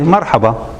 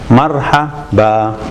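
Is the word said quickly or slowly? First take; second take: quickly; slowly. First: The word is said quickly and smoothly. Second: The word is said slowly and carefully.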